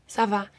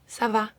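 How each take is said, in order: Both takes have the same delivery.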